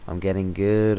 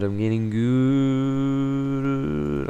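First: Said in the usual way. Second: Very slow, high, sung-out boast; sung, stretch it like a smug tune; sung, drawn-out sing-song. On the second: Pretend. Sung, gamer boasting to viewers after a win, slow sing-song.

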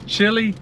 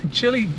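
Both takes have the same delivery.

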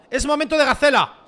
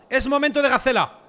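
The two takes are said the same way.

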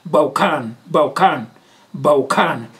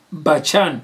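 First: "Baukan" with a hard k, bau-kan; "Baukan", falling on the final kan; corrected pronunciation. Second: Bachan with a "ch" as in chat; first-try pronunciation. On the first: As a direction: repeat "Baukan" carefully, k instead of ch. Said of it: "pronunciation ya vhuḓi heyo". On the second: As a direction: say "Bachan" as spelt, ba-chan. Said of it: "ri nga tori Baukan pronunciation ya vhuḓi". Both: Shown as a demonstration.

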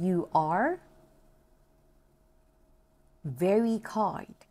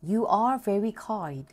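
First: Broken into parts. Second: "You are very kind" slowly in one unbroken phrase; whole sentence model. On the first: Teacher has learners repeat "You are very kind", in separated parts. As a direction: model "You are", long pause, then "very kind". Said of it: "ลองพูดดูเนาะ". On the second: Teacher has learners repeat "You are very kind", as a whole sentence. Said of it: "ทั้งประโยคเนาะ". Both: Shown as a demonstration.

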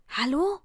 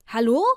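First: Said in the usual way. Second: Loud phone hello. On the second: Acted. Answering the phone amid screaming fans, loud questioning hello. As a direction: call hello loudly into the phone.

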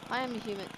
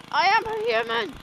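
First: Said in the usual way. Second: High, loud insistent yell; loud indignant declaration; shouted. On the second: Shown as a demonstration. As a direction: shout it out in protest.

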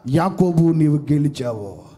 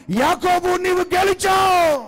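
First: Low loud heavenly voice. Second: High booming echo. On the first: Heavenly voice announces. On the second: Echoing across the wilderness. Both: Acted.

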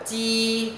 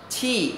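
First: "chi" held high and level with no puff of air; unaspirated sound. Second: "chi" with a burst of air, high pitch dropping at the end; aspirated sound. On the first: Teacher contrasts letters for students, unaspirated sound. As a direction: keep the breath back on a long "chi". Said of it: "Khác nha". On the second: Teacher contrasts the letter q for students, aspirated sound. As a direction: push breath out on the "ch" of "chi". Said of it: "Còn chữ quy đọc là". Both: Shown as a demonstration.

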